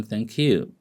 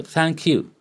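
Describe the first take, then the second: First: "Thank you" at usual pitch, falling on you; understated "Thank you", no lift; different intonation. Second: "Thank you" pitched high, falling on you; high, expressive "Thank you"; different intonation. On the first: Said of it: "different from". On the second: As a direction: lift Thank you high, then drop on you. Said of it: "The way I express myself is different". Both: Shown as a demonstration.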